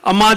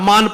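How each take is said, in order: First: The word ends in a nasalized vowel. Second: The word ends in a full n sound. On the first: The speaker calls it right. "अमां जे बजाए" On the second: The speaker calls it wrong. "अमान पढ़े थो"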